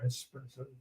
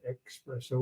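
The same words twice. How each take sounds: First: The word starts with an 'es' sound. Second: The word starts with an 'ex' sound. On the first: "the other S" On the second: "One has an X"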